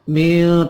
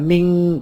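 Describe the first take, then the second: First: The final nasal is softened and half hidden. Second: The final nasal is a full, clear 'ng'. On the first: The speaker calls it right. "Hampir ang" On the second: The speaker calls it wrong. "Tapi bukan ming"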